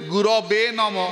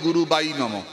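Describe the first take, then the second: First: The word is said as one word, gurave. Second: The word is split into two, guru bai. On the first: This is the way many people chant it. "অনেকেই মন্ত্র উচ্চারণ করতে গুরবে নম" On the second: This is how less-educated people say it. "আমরা বলি গুরু বাই নম। যারা পড়াশোনা কম জানে"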